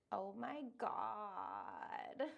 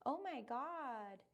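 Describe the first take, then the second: First: Creaky, dragged-out "Oh my God"; very slow "Oh my God" with vocal fry. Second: Said in the usual way. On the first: Shown as a demonstration. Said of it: "use creaky voice". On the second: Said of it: "instead of saying".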